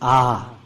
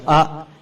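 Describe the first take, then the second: First: The vowel is long. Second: The vowel is short. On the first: The speaker calls it right. "it's simply a long vowel" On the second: The speaker calls it wrong. "Instead of A"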